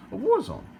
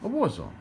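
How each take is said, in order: First: War zone cried out much higher and louder; ridiculing the nurse's war zone, pitched way up; mocking exclamation. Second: Said in the usual way. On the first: Shown as a demonstration. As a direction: fling the phrase up in disbelief. Repeating the nurse's phrase mockingly.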